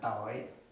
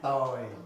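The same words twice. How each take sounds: First: The pitch drops very low on the word. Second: The pitch falls on the word. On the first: "this is down, very down" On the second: "And now it's going down"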